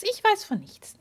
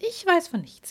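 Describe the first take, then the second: First: Even higher, teasing fairy; higher coy denial. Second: High, coy fairy voice; coy fairy denial. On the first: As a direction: push the innocence further up. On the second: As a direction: play innocent, sing-song high. Fairy denies knowledge. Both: Acted.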